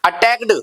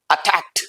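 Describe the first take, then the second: First: "अटैक्ड" ending on a d sound, attackd; wrong pronunciation. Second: "अटैक्ड" ending on a crisp t, attackt; right pronunciation. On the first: Teacher showing the common mistake, "अटैक्ड" with d. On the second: Teacher showing the correct "अटैक्ड" ending in t. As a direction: close "अटैक्ड" with a sharp t. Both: Shown as a demonstration. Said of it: "के के बाद T लगा दिया".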